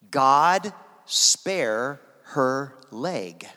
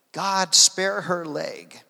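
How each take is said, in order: First: Very slow, word by word; slow, weighty prayer. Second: Slow but connected, pitched higher; solemn repeated prayer. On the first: Preacher reveals the translated prayer to the congregation, word by word. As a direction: let each word land separately, with space between. Retold prayer, spelt out slowly. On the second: Preacher repeats the translated prayer to the congregation, slow and lifted. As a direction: say it as one slow, pleading line. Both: Retold or imitated.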